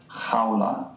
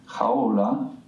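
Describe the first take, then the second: First: Jaula with the A leaned on slightly; Spanish diphthong. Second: Jaula with the U leaned on; wrong diphthong stress. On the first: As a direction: jaula as one syllable, stress the A. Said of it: "focusing ever so slightly more towards the strong vowel". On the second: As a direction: jaula split toward the weak vowel. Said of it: "Rather than saying". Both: Shown as a demonstration.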